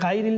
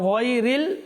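First: The first syllable sounds like 'ghai'. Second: The first syllable sounds like 'ghoy'. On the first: The speaker calls it wrong. "তো ঘাইরিল নেই" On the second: The speaker calls it right. "সেটা হচ্ছে গয়রিল"

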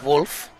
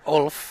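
First: The name begins with a W sound. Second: The name begins with a vowel sound. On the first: The speaker calls it right. "but it is Wolf" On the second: The speaker calls it wrong. "I think I've been calling one of the players on Team Alberta"

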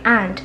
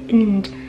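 First: The word is said in its full form. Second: The word is said in a reduced, weak form. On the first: "把这个and" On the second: "弱读成为and"

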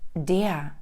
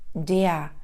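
Both takes have the same delivery.

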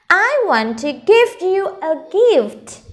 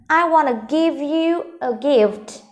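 First: Each word is said fully and carefully. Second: Want to is said fast, reduced to wanna.

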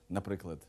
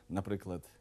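The two takes are said the same way.

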